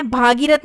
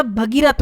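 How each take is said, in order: First: भागीरथ with long bhaa; wrong form. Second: भगीरथ with short bha; correct form. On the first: Teacher showing the mistake, भागीरथ starting on long bhaa. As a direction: open the first vowel of भागीरथ to aa. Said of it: "भागीरथ नहीं होता". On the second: Teacher correcting the word, भगीरथ starting on short bha. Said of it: "भगीरथ होता है". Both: Shown as a demonstration.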